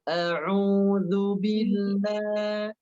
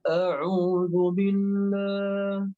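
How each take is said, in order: First: The L in billah sounds light and thin. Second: The L in billah sounds heavy and dark. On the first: The speaker calls it right. "Tipis, betul" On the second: The speaker calls it wrong. "lamnya cenderung tebal"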